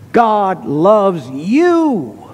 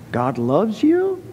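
First: It is said as a statement, falling at the end. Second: It is said as a question, rising at the end. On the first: It is declared as certain fact. The speaker calls it right. "That is an imperative, a statement" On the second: It is doubted or asked about. The speaker calls it wrong. "That is not a question"

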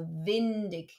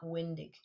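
First: The word begins with a v sound. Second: The word begins with an English w sound. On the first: The speaker calls it right. "the W in German, auf Deutsch, is pronounced like a V. So windig" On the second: The speaker calls it wrong. "and not windig"

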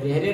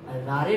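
First: It has an 'ay' vowel and a final 'ay'. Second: It has an 'aa' vowel and a final 'ay'. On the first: "रेरे नहीं बोलते हैं" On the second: "रारे नहीं बोलते हैं"

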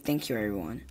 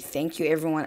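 First: The consonants are dropped and run together. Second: The consonants are pronounced fully and clearly. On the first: "I say thank you, everyone. ... I just eat up my consonants" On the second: "I don't say thank you, everyone"

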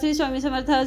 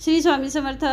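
No difference in how they are said.

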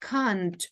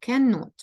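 First: It is said as one contracted word. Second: It is said as two full words. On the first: "скорочену форму ... треба сказати can't, це British variant" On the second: "довга форма can not ... ми читаємо, як бачимо"

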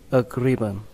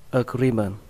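Both takes have the same delivery.

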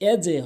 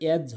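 First: The jeem ends with a short bouncing echo. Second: The jeem stops flat without an echo. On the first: The speaker calls it right. "এজে হবে" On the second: The speaker calls it wrong. "এজ হবে না"

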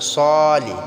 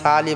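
First: The first syllable has a heavy s and rounded 'o'. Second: The first syllable has a light s and open 'a'. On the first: The speaker calls it right. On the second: The speaker calls it wrong. "সালি বললে হবে না"

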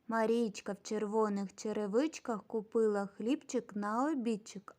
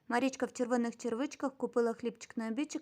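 First: The phrase is spoken fairly fast. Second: The phrase is spoken very fast. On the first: "Тепер швидше" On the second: "Тепер ще швидше"

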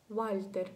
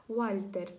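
Both takes have the same delivery.

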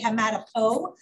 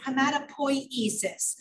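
First: The word is said fast, dropping syllables. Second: The word is said with every syllable. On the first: The speaker calls it wrong. "when I say it fast, I just say hematopo" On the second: The speaker calls it right. "but it's hematopoiesis"

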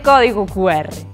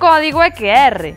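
First: The letter Q is read as 'cu'. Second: The letter Q is read as 'que'. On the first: The speaker calls it wrong. "Nada de código QR" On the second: The speaker calls it right. "En galego esta letra lese que, así que o código é QR"

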